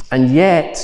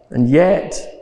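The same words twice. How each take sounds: First: "And yet," with a firm lift on "yet"; dramatic pause. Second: "and yet," repeated quietly, rising on "yet"; softer echo. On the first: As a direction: set up the turn, then stop. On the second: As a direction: let the echo hang as a question. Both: Real, not acted.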